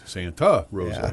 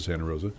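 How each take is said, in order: First: The name is said with an embellished, put-on pronunciation. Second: The name is said plainly, like a local. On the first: The speaker is an outsider to the place. The speaker calls it wrong. "But here come the New York guys" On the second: The speaker is a local who knows the place. The speaker calls it right. "you hear the guys from KCBS"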